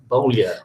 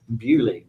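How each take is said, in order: First: The name is said the French way, like Boulier. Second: The name is said the English way, like Bewley. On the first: This is how the name's owner thinks it is said. "you think it's Creole" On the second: This is how it is said in Britain. "in this country, we pronounce it Bewley"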